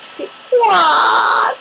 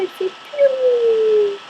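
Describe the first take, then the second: First: High, slow wailing quack with a cry in it; sad crying quack. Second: High, slow little piou; cute sad piou. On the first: Demoing a sad duck to her viewers, a high crying quack. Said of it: "quand t'es triste". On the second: Showing viewers how cute a sad bird sounds, a high slow piou. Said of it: "ça fait trop cute". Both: Shown as a demonstration.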